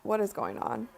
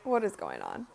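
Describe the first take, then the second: First: Said in the usual way. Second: Low, deep mock voice. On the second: Shown as a demonstration. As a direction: drop the voice way down.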